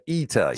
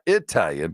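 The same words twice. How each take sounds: First: The first vowel is an 'ee' sound. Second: The first vowel is not an 'ee' sound. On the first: The speaker calls it right. "but Italian" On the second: The speaker calls it wrong. "not Italian"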